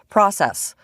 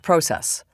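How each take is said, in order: First: It is said with an American pronunciation. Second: It is said with a Canadian pronunciation.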